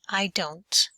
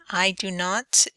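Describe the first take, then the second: First: It is said quickly as one reduced word. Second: Every word is said fully and separately.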